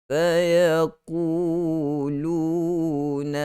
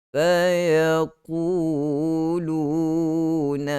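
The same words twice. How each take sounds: The two takes are said the same way.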